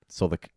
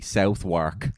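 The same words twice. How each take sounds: First: It is not pronounced as it is spelled. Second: It is pronounced just as it is spelled. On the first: The speaker calls it right. "swallow your pride, and say" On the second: The speaker calls it wrong. "that's the phonetic pronunciation"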